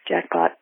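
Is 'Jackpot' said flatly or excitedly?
flatly. It is said flatly, with no emotion.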